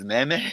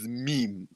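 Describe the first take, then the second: First: It is said the common Kenyan way. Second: It is said the original English way. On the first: "by our president's standards. So if you want to go by Kenya, it is meme" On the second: "But the original one is meme"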